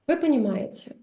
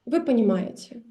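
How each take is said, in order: Both takes have the same delivery.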